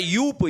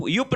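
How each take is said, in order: First: यूप with long "oo"; correct pronunciation. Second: युप with short u; wrong pronunciation. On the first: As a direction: stretch the vowel in यूप. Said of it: "नहीं होता है यूप". (यूप में लंबा "ऊ") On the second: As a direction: clip the vowel in युप. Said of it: "युप नहीं होता है". (युप में छोटा "उ") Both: Shown as a demonstration.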